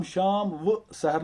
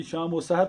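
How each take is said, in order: First: शाम व सहर in separate words, "shaam, wa, sahar"; separately read vav. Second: शाम व सहर run together as "shaamo sahar"; joined vav. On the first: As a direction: keep the व apart as its own "wa" in शाम व सहर. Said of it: "नहीं पढ़ेंगे". (शाम व सहर میں واؤ کو الگ "وَ" پڑھیں) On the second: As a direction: link व onto शाम as an O in शाम व सहर. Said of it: "बल्कि शाम व सहर पढ़ेंगे". (शाम व सहर کو ملا کر "شامو سحر" پڑھیں) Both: Shown as a demonstration.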